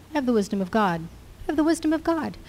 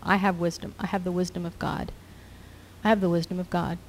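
First: Higher, lifted declaration; a quiet mutter building into a lifted confession; rising declaration. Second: Soft repeated murmur; quietly affirming faith over and over; muttered declaration. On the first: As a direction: let it climb as conviction grows. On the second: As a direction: murmur it to yourself like a mantra. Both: Shown as a demonstration. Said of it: "muttering to yourself".

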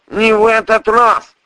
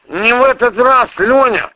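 First: High, loud, insistent repeat; the voice in his head, loud and high; prosecutor's voice. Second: High, loud, insistent man's voice; the prosecutor cutting in, loud and high; prosecutor's voice. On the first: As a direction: hammer it home, loud and high. Same line repeated by prosecutor. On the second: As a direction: voice in his head, loud and high. Prosecutor's voice bursting into head. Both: Acted.

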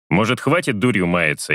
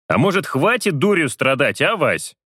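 First: Said in the usual way. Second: Serious. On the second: Acted. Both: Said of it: "Вполне серьёзно произношу я".

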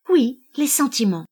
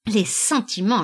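First: OUI louder and higher, SENTIMENTS firmly affirmed; emphatic. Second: SENTIMENTS dropped with light mockery; mocking. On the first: Wife answering her mocking husband, OUI and SENTIMENTS emphatic. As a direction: punch OUI and insist on SENTIMENTS. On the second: Husband throwing back his wife's word SENTIMENTS, mocking. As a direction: toss off SENTIMENTS derisively. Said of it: "laissa-t-il tomber railleur". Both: A narrator's reading.

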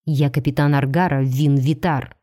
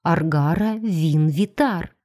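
First: Low male voice, restrained anger; name yourself low, with contained anger; angry hiss. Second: Slow, drawn-out stunned repetition; mechanical echo. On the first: Captain angrily introduces himself to struggling captive, mildly menacing. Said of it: "прошипел он с такой злостью". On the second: Stunned captive repeats the captain's name, mechanically. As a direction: repeat the name slowly and automatically. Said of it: "машинально повторила за ним". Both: A narrator's reading.

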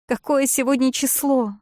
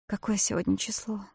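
First: Shrill high shriek of «Какое». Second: Said in the usual way. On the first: A narrator's reading. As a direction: shriek the question, «Какое» highest. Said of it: "взвизгнула я". (визгливо, «Какое» на высокой ноте)

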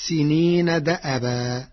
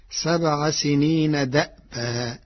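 First: دأبا in the reading before Warsh's change; usual reading. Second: دأبا with a vowelless hamza; Warsh's still hamza. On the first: Teacher cites the verse before explaining Warsh, usual reading. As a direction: say دأبا with the hamza opened by a short a. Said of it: "قرأ ورش كلمة دأبا". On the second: Teacher shows Warsh's reading, still hamza in دأبا. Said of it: "بإسكان الهمز، فتصير". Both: Shown as a demonstration.

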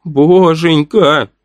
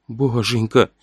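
First: Slow, drawn-out frightened plea; pleading prayer. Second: Softer, hushed plea to God; whispered prayer. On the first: Boy pleading to God in fear as the cult sister climbs. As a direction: beg God desperately. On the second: Boy whispering a prayer as the cult sister climbs. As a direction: breathe it out in terror. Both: A narrator's reading. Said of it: "шептал Назар".

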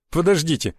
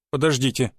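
First: With a light smirk. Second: Said in the usual way. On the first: A narrator's reading. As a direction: say it with a slight mocking chuckle. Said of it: "усмехнулся Дорохов". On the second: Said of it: "Подождите, давайте по порядку".

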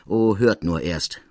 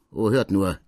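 First: Slow, bitter, wry delivery; bitter smile. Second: Bitter smile. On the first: Degré answering Larigny, slow and bitterly wry. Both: Acted. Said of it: "mit bitterm Lächeln".

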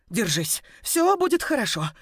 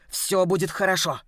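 First: High, breaking reassurance. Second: Said in the usual way. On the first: Acted. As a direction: comfort her while your own voice cracks. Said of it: "бормотала я срывающимся голосом".

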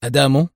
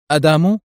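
First: Puzzled questioning rise; understated surprise, no shout; astonished. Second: Higher, louder questioning cry; alarmed. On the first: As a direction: repeat it in mild disbelief. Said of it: "وتمتم بدهشة". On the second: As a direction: blurt it out in sudden horror. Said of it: "وصاح بذعر". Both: A narrator's reading.

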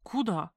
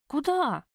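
First: Said in the usual way. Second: Sharp, higher, louder where?; ex-wife taken aback by two tickets, surprised. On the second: A narrator's reading. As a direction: blurt it out in disbelief. Startled question about tickets.

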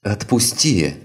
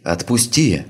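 First: High strained cry in pain; anguished cry. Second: Higher, louder pleading cry; desperate scream. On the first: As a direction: cry out as ribs crack. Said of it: "с надрывом закричала девушка". (надрывный крик) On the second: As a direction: scream to be let go. Girl screams again, louder. (отчаянный крик) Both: Acted.

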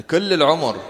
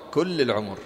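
First: كل punched higher and louder; stress on all. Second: Said in the usual way. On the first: Shown as a demonstration. Teacher to students, كل stressed loud. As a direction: hit كل hard in كل العمر. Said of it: "teacher stresses the whole life". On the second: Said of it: "teacher repeats, plain".

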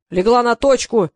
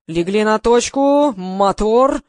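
First: Loud, slow, drawn-out bellow across the set; a director roaring his command. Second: Loud, slow roar of a command; a director bellowing to start the take. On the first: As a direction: yell the order so the whole set hears. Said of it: "завопил режиссёр". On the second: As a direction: roar it across the set. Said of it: "взревел Гриша". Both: A narrator's reading.

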